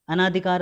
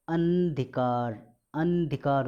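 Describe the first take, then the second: First: अनाधिकार with "naa" in the middle; wrong added vowel. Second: अंधिकार as "an-dhikaar", n held; middle vowel dropped. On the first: Teacher showing the wrong form, long "naa" in अनाधिकार. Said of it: "अशुद्ध है". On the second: Teacher correcting students, stretched "an" in अंधिकार. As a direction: go straight from n to dh in अंधिकार. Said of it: "होता है". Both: Shown as a demonstration.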